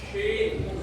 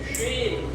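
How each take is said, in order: The two takes are said the same way.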